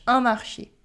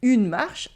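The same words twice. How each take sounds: First: "un marché" ending on a clear ay vowel; accented final É. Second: "Une marche" ending on a SH sound, silent E; unaccented final E. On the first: Teacher contrasting market with walk, "marché" with sounded final É. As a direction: say "marché" in two syllables, mar-shay. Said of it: "can change the meaning and pronunciation". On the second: Teacher contrasting walk with market, "marche" with silent final E. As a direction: say "marche" as one syllable, marsh. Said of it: "the difference between une marche". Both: Shown as a demonstration.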